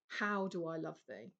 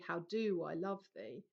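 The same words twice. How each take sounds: First: The word 'how' is strongly stressed. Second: The word 'how' is not stressed. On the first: The speaker calls it right. "real emphasis on the word how" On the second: The speaker calls it wrong. "you don't say"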